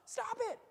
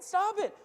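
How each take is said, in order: First: A sudden high warning "stop it"; firm stop. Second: "Stop it." high and loud, falling hard; firm command. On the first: Preacher warning those who take stuff, high pleading stop. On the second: Preacher commanding the greedy to quit, loud and high. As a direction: bark the order at the congregation. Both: Acted.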